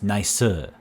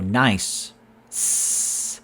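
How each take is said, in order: First: An extra vowel follows the final s sound. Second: The word ends on the s sound.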